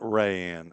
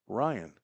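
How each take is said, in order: First: The name begins with a 'ray' sound. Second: The name begins with a 'rye' sound. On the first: The speaker calls it wrong. "so it's not Rayanne. I think that's how I've been pronouncing it" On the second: The speaker calls it right. "R Y A N N E is pronounced Ryan"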